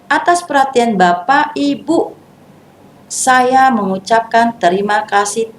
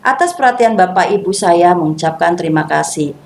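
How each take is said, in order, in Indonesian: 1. Ada jeda setelah Bapak Ibu. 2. Tidak ada jeda setelah Bapak Ibu.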